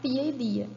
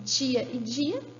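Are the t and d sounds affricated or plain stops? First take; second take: plain stops; affricated. First: The t and d are plain stop sounds. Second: The t and d sound like ch and j. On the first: This is another dialect. "tã e dã acontece no dialeto dois" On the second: This is the Minas Gerais dialect. "tchan e djã acontece no dialeto um"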